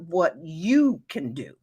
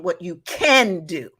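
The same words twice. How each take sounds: First: "what you can do" with the weight on YOU; stress off CAN. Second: "can" punched louder, falling into "do"; stress on CAN. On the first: Teacher naming the fourth way to say no, stress on YOU. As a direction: lean on "you", letting "can" pass unstressed. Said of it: "I put the emphasis on, on the wrong word". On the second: Teacher correcting the emphasis of the tip, stress on CAN. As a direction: hit the word CAN in "what you can do". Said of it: "It should be on can". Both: Shown as a demonstration.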